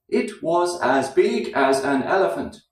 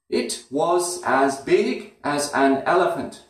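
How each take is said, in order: First: Every word is fully pronounced with flat rhythm. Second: Every word is fully pronounced with flat rhythm.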